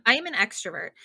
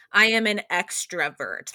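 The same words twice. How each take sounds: First: Said in the usual way. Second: "I am an extrovert" slowed, each word leaned on; emphatic, slower restatement. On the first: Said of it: "I am an extrovert, like". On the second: Shown as a demonstration. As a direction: say it again with more weight. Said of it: "to the nth degree".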